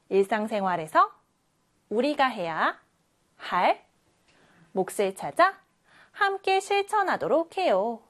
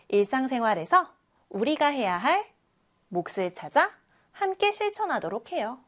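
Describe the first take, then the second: First: There is a pause inside '우리가 해야 할'. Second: '우리가 해야 할' is read joined, without pause.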